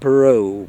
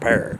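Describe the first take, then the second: First: The surname is pronounced the French way. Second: The surname is pronounced the English way. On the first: This is the family's original name. "It's actually David Perot, ... this was French" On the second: This is how the name came to be said locally. "That's the way the English people pronounce it"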